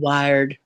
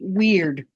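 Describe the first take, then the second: First: The vowel is a long I sound. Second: The vowel is a long E sound. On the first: The speaker calls it wrong. "it should have been wired" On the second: The speaker calls it right. "W E weird. It's not a long I"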